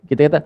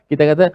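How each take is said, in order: Both takes have the same delivery.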